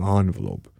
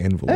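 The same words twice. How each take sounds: First: The word is said the British way. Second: The word is said the Canadian way. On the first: "Remember, you're British. So you're saying the Queen's English. You're saying envelope" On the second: "We're saying envelope"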